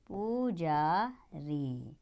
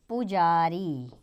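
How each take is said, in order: First: पुजारी stretched very slowly and much softer; very slow, soft reading. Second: पुजारी read slowly, syllable by syllable. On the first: Teacher to children repeating पुजारी for writing, very slow and soft. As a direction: dictate पुजारी very slowly and softly. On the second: Teacher to children announcing the next word, slow पुजारी. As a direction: draw out पुजारी for the class. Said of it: "अब अगला शब्द होगा". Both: Shown as a demonstration.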